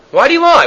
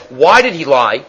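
First: Pitched up, pressing why did he lie; incredulous question. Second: Said in the usual way. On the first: Shown as a demonstration. Teacher pressing the class on Rashi's question, incredulous. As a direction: ask it as if it makes no sense. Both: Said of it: "Rashi says".

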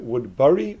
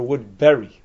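First: "Woodbury" with an "er" vowel, as in "burr-ee"; spelled BURY pronunciation. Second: "Woodbury" with the short E of "berry"; berry pronunciation. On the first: Teacher asking which spelling applies, "Woodbury" said as wood-burr-ee. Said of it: "'Cause it's spelled B U R Y". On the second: Teacher asking which spelling applies, "Woodbury" said as wood-berry. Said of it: "you know, it's a berry". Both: Shown as a demonstration.

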